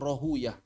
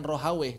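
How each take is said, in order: First: The name ends with a 'uyah' sound. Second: The name ends with an 'aweh' sound. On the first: This is the original Persian reading used by hadith scholars. The speaker calls it right. "tapi Rohuyah" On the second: This is the reading used by the jurists. The speaker calls it wrong. "Bukan Rohaweh"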